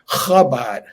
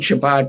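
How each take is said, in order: First: It begins with a rasping guttural sound. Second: It begins with an English ch sound. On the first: The speaker calls it right. "the guttural pronunciation of the C H" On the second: The speaker calls it wrong. "it's not really Chabad"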